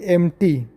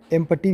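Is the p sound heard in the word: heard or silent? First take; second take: silent; heard. First: The word is said without a p sound. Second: The word is said with a p sound. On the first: The speaker calls it right. "पी के बाद T आया है" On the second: The speaker calls it wrong. "बोल देते हैं जब समझते नहीं हम तो"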